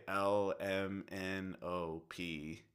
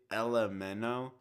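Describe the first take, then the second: First: L M N O P slowly, each letter separate; new way. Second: L M N O run together as one quick blur; old way. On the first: Cohost explaining the new alphabet song, L M N O P slow and separate. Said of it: "you say". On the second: Cohost explaining the alphabet song change, running L M N O together. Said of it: "you don't say". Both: Shown as a demonstration.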